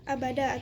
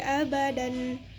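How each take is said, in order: First: The word ends on a long vowel. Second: The word ends with an n sound. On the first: The reader stops at this word. "Kalau berhenti itu dibaca abada" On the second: This is the word's original full form. "yang aslinya itu bacanya makifina fihi abadan"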